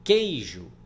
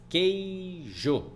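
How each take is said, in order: First: Said in the usual way. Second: "Queijo" stretched into quei-jo, higher pitched; drawn-out "Queijo" as quei... jo; syllable division. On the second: Shown as a demonstration. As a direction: say "Queijo" syllable by syllable, full final o. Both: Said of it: "Vai ficar sempre na mesma sílaba".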